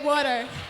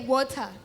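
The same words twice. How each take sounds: First: It is said with an American English accent. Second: It is said with an African English accent. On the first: "Then Americans say water" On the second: "The English from Africa, when they say amazi, they say water"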